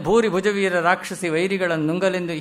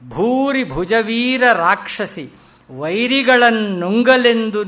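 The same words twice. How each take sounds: First: It is read plainly, without energy. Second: It is read with charged, emotional energy. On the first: The speaker calls it wrong. "ಸುಮ್ಮನೆ ... ಹೀಗೆ ಓದ್ಕೊಂಡ್ರೆ ಅದು ಏನು ಪ್ರಯೋಜನವಿಲ್ಲ" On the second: The speaker calls it right. "ಓದುವಾಗ ಅದು charge ಆಗಬೇಕು"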